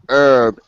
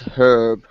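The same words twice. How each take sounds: First: The word starts without an h sound. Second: The word starts with an h sound. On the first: The speaker calls it wrong. "it's not herb" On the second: The speaker calls it right. "it's herb with a H"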